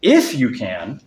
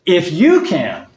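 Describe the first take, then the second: First: If drawn out slowly and stressed; slow, weighty If. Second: You lifted and stressed. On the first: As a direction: If stretched and pointed back at him. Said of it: "emphasizing the word "if". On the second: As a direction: lean hard on you. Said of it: "emphasizing the word "you". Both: Shown as a demonstration.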